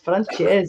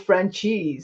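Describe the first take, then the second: First: The name does not sound like franchise. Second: The name sounds like the English word franchise. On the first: The speaker calls it right. "dude, it's Francese" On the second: The speaker calls it wrong. "he mispronounces his own name"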